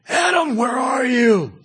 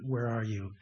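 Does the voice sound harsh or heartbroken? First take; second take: harsh; heartbroken. First: It sounds harsh, like an arresting officer. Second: It sounds sad, like a heartbroken father.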